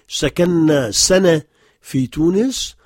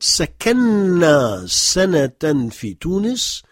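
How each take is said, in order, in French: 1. Le mot pour 'year' se termine sans son -an. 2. Le mot pour 'year' se termine par un son -an.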